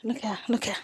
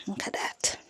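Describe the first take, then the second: First: Said in the usual way. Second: Barely voiced whisper. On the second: Real, not acted. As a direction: hush it to a breath. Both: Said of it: "Say it louder".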